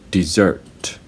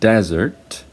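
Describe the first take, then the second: First: The stress is on the second syllable. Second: The stress is on the first syllable. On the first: To leave without giving notice. "the other pronunciation of this word" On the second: A dry, arid land. "the first syllable is stressed because it's a noun"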